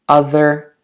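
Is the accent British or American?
American. The final r sound is fully pronounced. "and in American English"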